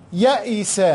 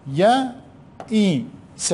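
First: Said in the usual way. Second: يئس stretched very long; very slow dictation. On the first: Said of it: "teacher saying word". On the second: Shown as a demonstration. Teacher dictating to pupils, يئس very drawn out. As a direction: drag out يئس for the class. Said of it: "teacher dictating very slowly".

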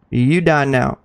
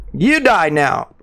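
First: Lower, quicker repeat of "You die now"; low threat. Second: Drawn-out, slow threat; slow menace. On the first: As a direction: drop it down low, matter-of-fact. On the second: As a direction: spell it out slowly, like a verdict. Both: Pretend.

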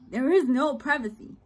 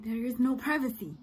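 First: "is" पर ज़ोर, louder; stressed repeat. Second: Said in the usual way. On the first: Shown as a demonstration. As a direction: hit "is" hard and louder.

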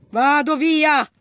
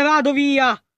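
First: Slow, stretched "Vado via!"; emphatic slow "Vado via!"; drawn-out exclaim. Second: Said in the usual way. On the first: Real, not acted. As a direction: drag out "via" as you bolt. Fleeing monster in game.

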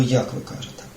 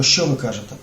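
First: "як" stressed, the rest falls away; stress on how. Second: "що" stressed, set against "як"; stress on what. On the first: Teacher stressing how you speak, accent on "як". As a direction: lean on "як", the how of speech. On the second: Teacher contrasting what and how, stress on "що". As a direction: lean on "що", the what of speech. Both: Shown as a demonstration. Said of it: "а важливо, як ви кажете".

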